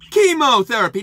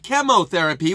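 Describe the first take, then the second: First: The first syllable differs from the one in 'chemistry'. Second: The first syllable sounds like the one in 'chemistry'. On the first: This is the medical way of saying it. "They pronounce it chemo instead of chemotherapy" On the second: This matches how the word is said everywhere else. "which is how you pronounce that word in every other instance"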